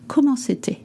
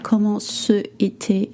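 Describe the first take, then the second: First: The c sound joins directly onto était. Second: Ce is said as its own separate syllable. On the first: The speaker calls it right. "It's comment c'était" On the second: The speaker calls it wrong. "You don't say comment ce était"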